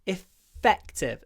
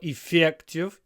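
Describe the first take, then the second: First: The stressed vowel is half-voiceless. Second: The stressed vowel is fully voiced. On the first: The speaker calls it right. "It's полуглухой because it's between two uh, unvoiced consonants" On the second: The speaker calls it wrong. "don't go effective"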